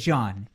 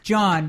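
First: The name begins with a soft sh sound. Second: The name begins with a hard j sound. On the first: The speaker calls it wrong. "I said Jean with a sh" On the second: The speaker calls it right. "It's John"

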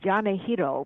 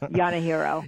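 First: The name is said with Japanese pronunciation. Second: The name is said with American pronunciation. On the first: "the Japanese version is Yanahiro, which is the correct pronunciation" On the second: "I'm third generation, and everybody goes Yanahiro"

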